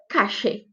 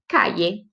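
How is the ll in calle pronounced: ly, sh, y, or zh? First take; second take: sh; y. First: The ll sounds like a hissing sh sound. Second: The ll sounds like a y glide. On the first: This is also heard in Argentina and Uruguay. "Como se fosse um X mesmo" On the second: This is heard in Spain and parts of Latin America. "Como se fosse um I"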